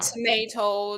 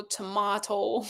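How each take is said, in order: First: Tomato as to-MAY-to, slow; American to-MAY-to, drawn out. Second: Tomato as to-MAH-to, slow and softer; British to-MAH-to, drawn out. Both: Shown as a demonstration. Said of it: "you have some tricks".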